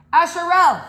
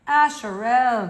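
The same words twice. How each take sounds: First: Sharp, much louder, higher call of the name; strange loud call. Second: Put-on calling the boy's name, slow and raised; a firm, drawn-out call to wake him; strange loud voice. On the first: The Masfia shouts at the dreaming boy, loud and high. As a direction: snap him out of his daydream. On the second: The Masfia calls the daydreaming Asherel, loud and strange. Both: A narrator's reading. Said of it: "saying in a strange, loud voice".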